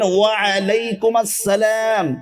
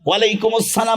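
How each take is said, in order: First: The opening 'wa' is said as a separate word. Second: The opening 'wa' is merged into 'alaikum'. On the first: The speaker calls it right. "বলবেন" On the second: The speaker calls it wrong. "ভুল"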